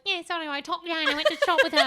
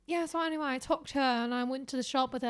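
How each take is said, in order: First: Rushed, louder, higher mock British; parroted British accent. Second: Overheard British chatter, lightly imitated; casual put-on British accent; mock British accent. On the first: Parroting passers-by to mom, fast mock British accent. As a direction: rattle it off in exaggerated British. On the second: Voicing British passers-by, mock British accent. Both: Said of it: "repeating British shit I heard".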